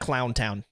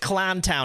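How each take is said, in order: First: The first word has an 'ow' vowel. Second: The first word has an 'ah' vowel. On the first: The speaker calls it wrong. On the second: The speaker calls it right. "It's Clown Town, ... C L A H N"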